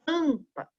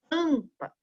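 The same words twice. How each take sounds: First: The nasal vowel is short and natural. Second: The nasal vowel is short and natural.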